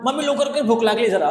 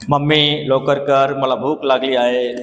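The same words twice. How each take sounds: First: Higher, snappy hurry-up; hungry child rushing mummy, impatient; impatient hungry demand. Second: Slow, lower, drawn out; slow gentle ask to mummy; slow polite ask. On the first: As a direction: demand food now, irritated. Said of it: "असं म्हणणार". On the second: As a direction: ask gently and slowly, no hurry. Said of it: "असं तर कधी बोलणार नाही तुम्ही". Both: Shown as a demonstration.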